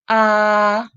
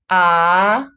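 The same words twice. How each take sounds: First: The pitch stays high and level. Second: The pitch rises from mid to high. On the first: "first tone, it's high and flat" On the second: "the second tone, it's going up"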